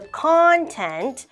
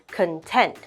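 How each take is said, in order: First: The pitch rises then falls like an arc. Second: The pitch goes up across the word. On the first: The word is a noun. "it's going like an arc" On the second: The word is an adjective. "the intonation for content goes up"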